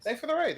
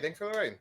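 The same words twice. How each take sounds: First: High, loud, excited thank-you. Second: Higher than usual but calmer; calmer thanks. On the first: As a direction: call it out brightly to the raiders. Thanking raiders on stream. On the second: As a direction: settle a little on the repeat. Repeats the thanks. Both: Real, not acted.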